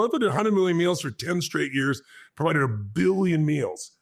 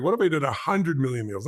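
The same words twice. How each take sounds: First: Growing excitement. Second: Said in the usual way. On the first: Retold or imitated. Speaker dreaming up a billion meals for the audience, building excitement. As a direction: pitch jumps higher, then slows on a billion meals. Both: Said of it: "that is an exciting outcome".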